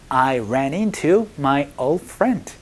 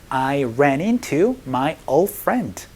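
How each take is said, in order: No difference in how they are said.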